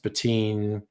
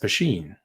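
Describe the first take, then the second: First: The middle consonant is a 't' sound. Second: The middle consonant is an 'sh' sound. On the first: The speaker calls it wrong. "it's not pronounced Patine" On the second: The speaker calls it right. "it's pronounced Pasheen"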